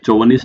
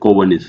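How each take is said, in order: First: The word begins with a ch sound. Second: The word begins with a k sound. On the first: The speaker calls it wrong. "चौवनिस्ट नहीं होता" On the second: The speaker calls it right. "सी एच, जैसे केमिस्ट्री में सी एच को क्या बोलते हैं"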